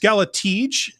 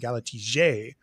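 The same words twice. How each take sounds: First: The name is said in a plain everyday way. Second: The name is said in a posh European way.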